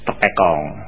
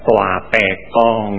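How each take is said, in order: First: It begins with the short syllable te. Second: It begins with the syllable toa. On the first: The speaker calls it wrong. "karena orang suka baca salah" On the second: The speaker calls it right. "mestinya dibaca Toa Pekong ya"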